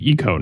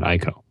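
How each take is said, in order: First: The first syllable sounds like the letter E. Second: The first syllable does not sound like E. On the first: The speaker calls it right. "the first character is pronounced like the letter E" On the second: The speaker calls it wrong. "not Ico"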